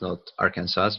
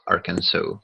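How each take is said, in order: First: The spelled-out "Arkansas", rhyming with Kansas; pronunciation demo. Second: "Arkansas" ending in "-saw", silent final S; corrected pronunciation. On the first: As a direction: say "Arkansas" as spelt, ending like Kansas with a sounded S. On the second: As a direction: give "Arkansas" an open "so" ending, no S heard. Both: Shown as a demonstration. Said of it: "It's pronounced Arkansas".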